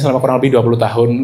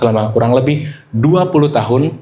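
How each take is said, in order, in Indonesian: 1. Diucapkan datar tanpa penekanan. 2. Diperlambat dengan penekanan yang kuat. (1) "Gak ada makna" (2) "itu kan jadi bermakna banget kata-kata dua puluh tahun"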